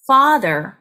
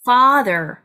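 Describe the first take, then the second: First: The first vowel is short and clipped. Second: The first vowel is long and open. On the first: The speaker calls it wrong. "father가 아니라" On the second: The speaker calls it right. "턱을 아래로 쭉 내리면서 아 하고 조금 길게 발음합니다"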